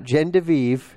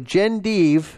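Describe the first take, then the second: First: The name is said with an extra syllable. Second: The name is said without an extra syllable. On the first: The speaker calls it wrong. "not Genndeve" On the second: The speaker calls it right. "Genndeve, not Genndeve, is right"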